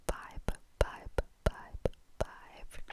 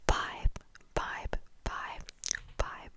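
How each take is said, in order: Both takes have the same delivery.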